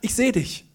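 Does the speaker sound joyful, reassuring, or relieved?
relieved. It is said in a relieved tone. The searched-for person has finally been found.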